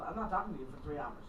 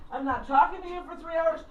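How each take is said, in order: First: Low, quick and soft, dry as a rule; quiet deadpan. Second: "talking" leaned on, spoken firmly; firm declaration. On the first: Stating her phone rule low and quick to a listener. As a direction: rattle it off low like a house rule. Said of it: "It's called". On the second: Telling the audience her phone border with conviction. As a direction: say it like a proud personal motto. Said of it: "I'm not a phone person". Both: Shown as a demonstration.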